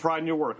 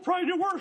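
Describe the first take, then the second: First: The voice sounds steady and confident. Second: The voice sounds nervous and shaky. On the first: The speaker seems brave. "the way I'm saying it right now probably makes me sound a lot more brave" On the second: The speaker seems scared. "I'm sure I was shaking and just being like"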